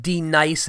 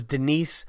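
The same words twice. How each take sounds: First: "D Nice" for Denise, dee-NICE; mispronounced name. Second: Said in the usual way. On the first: Retold or imitated. Retelling the teacher's roll call, Denise mispronounced as "D Nice". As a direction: say "D Nice" as dee plus the word nice. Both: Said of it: "and it was Denise".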